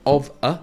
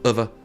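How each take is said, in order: First: It is said slowly and fully. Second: It is said quickly and reduced.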